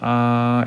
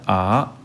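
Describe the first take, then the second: First: The pitch stays level and steady. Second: The pitch rises. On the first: "일성은 아 라고 하면서 ... 입에서 그대로 나는 느낌으로 말하면 아이들의 성조는 일정하게 납니다. 아 이렇게요" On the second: "이성의 경우에는 아 이렇게 올라가고요"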